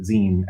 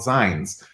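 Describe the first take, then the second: First: The vowel sounds like the end of magazine. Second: The vowel does not sound like magazine's end. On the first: It is the way most people say it. "most people pronounce it zine, as in like the back half of magazine" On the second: It is a less common way to say it. "that's a way to pronounce it"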